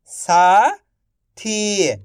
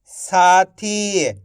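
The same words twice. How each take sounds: First: Slow stretched reading. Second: Said in the usual way. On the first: Shown as a demonstration. Teacher to pupils, slowly stretched. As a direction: draw साथी out slowly. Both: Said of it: "आप इस तरीके से".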